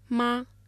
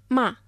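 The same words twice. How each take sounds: First: It is said with the first tone. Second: It is said with the fourth tone. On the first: It means mother. "Μα με τον πρώτο τόνο" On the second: It means to scold. "Μα με τον τέταρτο τόνο"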